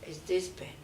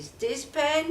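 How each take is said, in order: First: Softer, lower, stressing "this" with a rise. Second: Questioning with pen stressed, slightly higher. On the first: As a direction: point at the object by leaning on "this". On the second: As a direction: lean on "pen" as the open question. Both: Shown as a demonstration.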